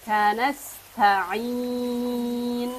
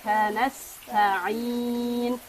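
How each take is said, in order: No difference in how they are said.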